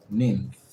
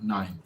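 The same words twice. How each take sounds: First: "Ninth" said ninnth, with a short i; alternative pronunciation. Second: "ninth" said nighnth, rhyming with nine, softer; alternative pronunciation. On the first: Learner checking the word, "Ninth" tried with a short i as ninnth. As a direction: say "Ninth" with the vowel of pin. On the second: Learner checking the word, "ninth" tried softly with the vowel of nine. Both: Shown as a demonstration. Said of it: "Let me check that for you".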